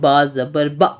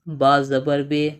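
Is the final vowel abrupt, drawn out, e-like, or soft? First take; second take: abrupt; e-like. First: The final vowel is cut off with a jerk. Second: The final vowel sounds like an 'e'. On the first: "झटका देना नहीं होता है" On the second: "ये हो गया मजहूल"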